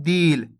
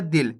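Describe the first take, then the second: First: दिल stretched into a long ee; drawn-out vowel. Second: दिल said quickly with a short i; quick short vowel. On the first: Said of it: "शब्द का उच्चारण खींच के हो रहा है". (दिल को खींच के "दील" बोलें) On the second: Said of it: "शब्द का उच्चारण जल्दी से हो रहा है". (दिल में छोटी इ, जल्दी से बोलें) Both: Shown as a demonstration.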